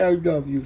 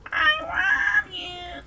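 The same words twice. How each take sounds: First: Said in the usual way. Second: Very high, slow squeaky "I love you"; high cat voice. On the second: Shown as a demonstration. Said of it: "Come on".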